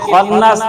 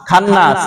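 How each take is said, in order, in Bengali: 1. প্রথম স্বরবর্ণটি হ্রস্ব। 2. প্রথম স্বরবর্ণটি টেনে দীর্ঘ করা হয়। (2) "জবরের বিকল্প আকার"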